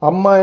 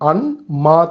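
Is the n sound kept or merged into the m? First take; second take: merged; kept. First: The n merges into a doubled m sound. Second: The n is said separately before the m. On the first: "அம்மா என்றா உண்மைக்குமே ரெண்டு வார்த்தை" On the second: "அன் மா தான் அன்மாவாக மாறுது"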